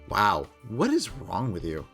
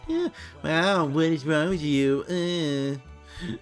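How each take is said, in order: First: It is said in a normal voice. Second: It is said in a mocking nasal voice.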